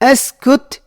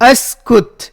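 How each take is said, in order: Both takes have the same delivery.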